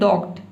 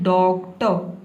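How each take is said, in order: First: The word ends abruptly on a bare t. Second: The word ends with a vowel after t. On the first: The speaker calls it wrong. "आप ये ना बोले डॉक्ट" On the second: The speaker calls it right. "आपको बोलना है डॉक्टर"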